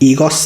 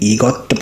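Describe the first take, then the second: First: The word ends with an s sound. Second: The word ends with a t sound. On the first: The speaker calls it wrong. "ईगोस नहीं पढ़ेंगे" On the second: The speaker calls it right. "ईगोत पढ़ेंगे"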